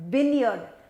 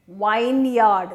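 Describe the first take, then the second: First: The first syllable has a short 'vin' vowel. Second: The first syllable has a long 'vine' vowel. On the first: The speaker calls it right. "it is vineyard" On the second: The speaker calls it wrong. "you make it into vineyard, ... and it is wrong"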